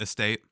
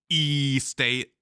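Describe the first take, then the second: First: The stress is on the second syllable. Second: The stress is on the first syllable.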